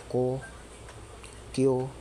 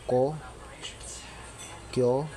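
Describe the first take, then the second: No difference in how they are said.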